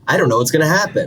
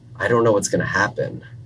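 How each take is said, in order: First: It sounds upbeat and excited. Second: It sounds gloomy and fearful.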